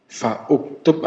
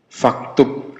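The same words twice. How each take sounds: First: "Fa uktub" with the u sounded after fa; "Fa uktub", hamzah not dropped; hamzah pronounced. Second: "Faktub" run together, no u after fa; "Faktub" as one word, hamzah silent; hamzah dropped. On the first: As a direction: say "Fa uktub" as two separate words. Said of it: "Fa uktub apa faktub?". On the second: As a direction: join fa straight onto the k in "Faktub". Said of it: "Bacanya faktub". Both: Shown as a demonstration.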